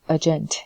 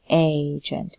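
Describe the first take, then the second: First: The second syllable has a full, clear vowel. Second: The second syllable has a weak, reduced vowel. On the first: The speaker calls it wrong. "We don't say um, agent" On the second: The speaker calls it right. "we say agent"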